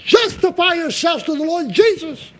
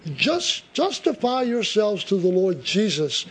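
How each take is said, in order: First: It is said loudly, as a shout. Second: It is said in a calm reading voice. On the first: The speaker calls it right. "That's the way he said it" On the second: The speaker calls it wrong. "not the way I read it"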